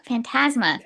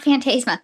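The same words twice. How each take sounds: First: Phantasma with a short a, fan-TAZ-ma; right pronunciation. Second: Phantasma with a long ay, fan-TAY-zma; wrong pronunciation. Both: Shown as a demonstration. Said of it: "Not Phantasma".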